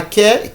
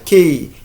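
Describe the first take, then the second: First: "ke" with a short open "eh"; short vowel. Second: "kei" with the vowel gliding like letter A; long A. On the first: Teacher showing can before the final E is added, short "eh" vowel. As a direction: say "ke" as in can, no glide. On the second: Teacher showing what the final E changes, long A vowel. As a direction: say "kei" to rhyme with day. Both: Shown as a demonstration. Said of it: "quand on ajoute le I final".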